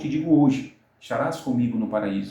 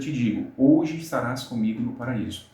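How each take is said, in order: First: The pause comes after 'hoje'. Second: The pause comes before 'hoje'.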